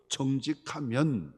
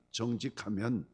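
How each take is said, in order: First: Drawn out and stressed, 정직하면 said slowly with weight; slow emphatic. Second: Said in the usual way. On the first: Shown as a demonstration. Preacher stressing 정직하면 slowly to the congregation. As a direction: lean into 정직하면, slow and firm.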